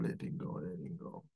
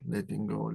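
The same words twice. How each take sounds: First: Letting go, letting go whispered and dying away; whispered letting go fading to nothing. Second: Said in the usual way. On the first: Shown as a demonstration. Repeated letting go while exhaling.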